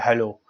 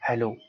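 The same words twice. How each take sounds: First: It is said loudly, in a raised voice. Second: It is said quietly and softly.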